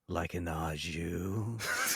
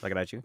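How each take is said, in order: First: It is said slowly. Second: It is said fast.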